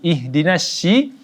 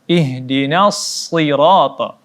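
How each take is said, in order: First: The s sound is pronounced as sh. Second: The s sound is a heavy, emphatic s. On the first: The speaker calls it wrong. "dengan huruf uh, shi" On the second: The speaker calls it right. "Huruf shad"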